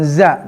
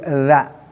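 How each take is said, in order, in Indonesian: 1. Konsonannya bunyi z biasa yang berdengung. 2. Konsonannya th bersuara, lidah di antara gigi. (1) "bukan za" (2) "harus digigit"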